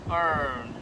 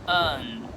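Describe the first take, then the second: First: The vowel is colored with an R sound. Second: The vowel is flat with no R sound. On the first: "not earn" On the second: "I would say earn"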